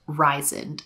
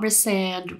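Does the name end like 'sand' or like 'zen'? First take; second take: zen; sand. First: The name ends with a soft 'zen' sound. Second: The name ends with a clear 'sand' sound. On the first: The speaker calls it right. "It is Ryzen, okay?" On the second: The speaker calls it wrong. "It's not Rysand"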